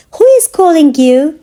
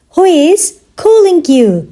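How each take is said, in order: First: Said in the usual way. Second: Measured language-lesson delivery; slow teaching repeat. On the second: Shown as a demonstration. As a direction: pause after "Who is". Teacher repeats question slowly for learners.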